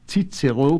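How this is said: It uses the German pronunciation. "to the German"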